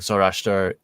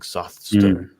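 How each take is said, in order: First: The name is said without a th sound. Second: The name is said with a th sound. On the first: The speaker calls it wrong. "It's not actually pronounced that way" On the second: The speaker calls it right. "there's more of a th sound to it, like Zothster"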